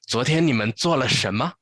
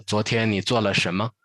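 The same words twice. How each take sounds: First: 昨天你们做了什么 raised and lively, eager to hear about the date; 昨天你们做了什么 with a broad, swinging tune, curious; playful, nosy 昨天你们做了什么 pitched up; wide pitch range. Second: 昨天你做了什么 said level and quick, just collecting information; 昨天你做了什么 in a narrow, even tune; narrow pitch range. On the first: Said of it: "the other one is more". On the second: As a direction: keep 昨天你做了什么 flat and matter-of-fact. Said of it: "the first one pitch range is very narrow". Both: Shown as a demonstration.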